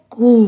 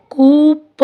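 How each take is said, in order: First: कू ending on the long open vowel; silent P. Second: कू प with a separate P sound after the vowel. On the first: Teacher correcting the mistake, कू with silent P. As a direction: say कू with no P at all. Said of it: "पी silent है". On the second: Teacher showing the mistake to avoid, कू प with P sounded. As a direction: say कू प, voicing the final P. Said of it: "इसको कू प नहीं बोलेंगे". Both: Shown as a demonstration.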